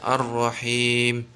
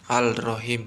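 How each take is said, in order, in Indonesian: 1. Bunyi L melebur ke dalam bunyi R. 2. Bunyi L diucapkan sebelum R. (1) "harus dibaca idgham" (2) "tidak boleh"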